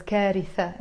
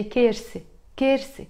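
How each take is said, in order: First: كارثة in three syllables, "KAA-ri-tha", with a th; standard Arabic pronunciation. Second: كارثة shortened to "KER-se", with s for th; dialect pronunciation. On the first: Teacher showing what dialect doesn't use, كارثة said standard "kaaritha". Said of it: "we don't pronounce it as". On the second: Teacher modelling the dialect for students, كارثة said as "kerse". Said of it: "We say". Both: Shown as a demonstration.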